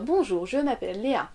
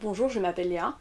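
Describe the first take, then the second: First: The pitch rises and falls across the sentence. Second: The pitch stays flat throughout the sentence. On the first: The speaker calls it wrong. "On va pas dire" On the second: The speaker calls it right. "on va parler de façon plate. On va dire"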